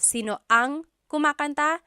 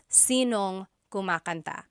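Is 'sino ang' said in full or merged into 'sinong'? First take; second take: full; merged. First: Sino and ang are said as separate words. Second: Sino and ang are merged into sinong. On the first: "Instead of sino ang kumakanta" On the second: "you might hear sinong. So they put it together"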